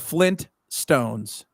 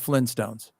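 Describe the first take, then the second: First: A t sound is heard after the n. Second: No t sound is heard after the n. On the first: The speaker calls it right. "Flintstone has two T's" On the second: The speaker calls it wrong. "not the Flintstones"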